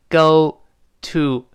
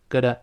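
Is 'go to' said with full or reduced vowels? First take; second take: full; reduced. First: It is said slowly with full vowels. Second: It is said fast with weakened vowels. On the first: "Go to 是单独读" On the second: "读快了之后会弱化，中间那个t 轻轻的浊化成的，那两个o u 都弱化成a"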